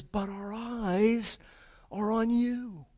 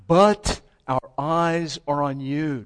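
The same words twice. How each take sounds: First: But our eyes are on you, said slow and higher; slow, reverent declaration; slow, lifted emphasis. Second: But our eyes are on you, drawn out slow and loud; slow, weighty proclamation; slow, loud emphasis. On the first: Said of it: "he ends and he says". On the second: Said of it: "Do you see it?". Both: Shown as a demonstration.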